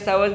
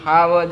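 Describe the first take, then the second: First: The word begins with an s sound. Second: The word begins with an h sound. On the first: The speaker calls it wrong. "સાવજ ગરજે હારું ન લાગે" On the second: The speaker calls it right. "ઈ હાવજ જ હારે"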